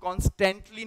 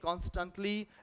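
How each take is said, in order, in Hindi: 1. दूसरा अक्षर 'tent' जैसा सुनाई देता है। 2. दूसरा अक्षर 'tunt' जैसा सुनाई देता है। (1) "इसको हम कॉन्स्टेंटली नहीं पढ़ेंगे, टेंटली नहीं है" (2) "टंटली is what you would say"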